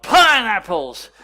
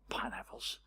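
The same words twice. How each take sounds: First: High, very loud, drawn-out shout; retold yell. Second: Hushed, voiceless joking whisper; retold whisper. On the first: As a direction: yell it out like an excited kid in church. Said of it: "jumped up and he yelled". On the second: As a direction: whisper it like a private joke to your son. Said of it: "just whispered to my older brother".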